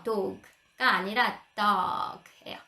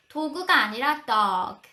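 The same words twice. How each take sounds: First: Dog said slowly with an open aw, not 도그; dog with an aw vowel. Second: 도그 spoken Korean style, then dog as one syllable; Konglish then English. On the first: Teacher contrasting Korean 도그 with English dog. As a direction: stretch dog out, one open syllable. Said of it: "어 발음이에요". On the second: Teacher correcting 도그 to dog for parents. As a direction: set 도그 against a clipped English dog. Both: Shown as a demonstration.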